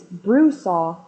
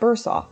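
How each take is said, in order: First: The name begins with the sound 'bru'. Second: The name begins with the sound 'bur'. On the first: The speaker calls it right. "it's Brusaw" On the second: The speaker calls it wrong. "not Bursaw"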